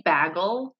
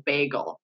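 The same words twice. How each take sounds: First: "bagel" with a short A, as BAG-ul; mispronounced bagel. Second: "bagel" with a long A, as BAY-gul; correct bagel. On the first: Retold or imitated. Friend quoting a hated pronunciation, "bagel" as BAG-ul. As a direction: say "bagel" to rhyme with haggle. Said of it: "my skin crawls". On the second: Shown as a demonstration. Friend correcting a hated pronunciation, "bagel" as BAY-gul. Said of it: "It does say bagel".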